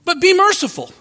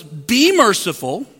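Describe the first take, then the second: First: "be" punched high and firm, falling; emphatic "be merciful", voice jumping up on "be"; stress on be. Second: "Be merciful." with "Be" drawn out on a slow rise; "Be" stretched and lifted, slowly; stress on be. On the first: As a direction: hit "be" hard and high. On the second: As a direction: lean on "Be" slowly, rising. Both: Shown as a demonstration. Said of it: "Not do some merciful acts at times".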